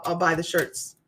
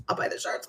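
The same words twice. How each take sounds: First: Said in the usual way. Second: Whispered aside, voice dropped; a conspiratorial whispered repeat. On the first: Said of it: "I'll buy the shirts, man". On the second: Acted. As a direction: say it again under your breath.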